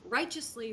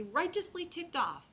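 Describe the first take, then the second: First: Said in the usual way. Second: Righteously stretched out slow and pitched higher; stress on righteously. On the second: Shown as a demonstration. Speaker stressing righteously to foster parents, slow and emphatic. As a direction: lean hard into righteously, drawing it out.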